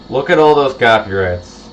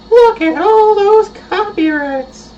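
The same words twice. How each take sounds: First: Said in the usual way. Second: High, slow cartoonish voice; high silly voice. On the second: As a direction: squeak it out like a cartoon. Repeats line in put-on voice.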